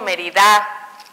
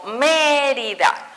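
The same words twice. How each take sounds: First: The stress falls on a later syllable. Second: The stress falls on the first syllable. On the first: The speaker calls it wrong. "no digo Mérida" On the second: The speaker calls it right. "digo Mérida"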